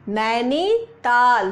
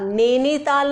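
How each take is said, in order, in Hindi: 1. पहला स्वर 'ai' ध्वनि है। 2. पहला स्वर सादा 'e' है।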